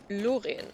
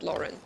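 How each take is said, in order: First: The name has a strong German R sound. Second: The name has a soft English R sound.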